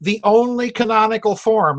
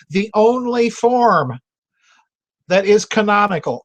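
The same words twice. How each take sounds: First: Said in the usual way. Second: "The only form that is canonical" said slow, leaning hard on "form" and "is"; slow emphatic repeat. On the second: Shown as a demonstration. Repeating his point to viewers, slow with stress on "form" and "is". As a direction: spell it out slowly, weighing "form" and "is". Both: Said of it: "let me repeat it".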